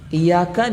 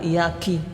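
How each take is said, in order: First: The word ends with a 'ka' sound. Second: The word ends with a 'ki' sound. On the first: It addresses a male. The speaker calls it right. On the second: It addresses a female. The speaker calls it wrong.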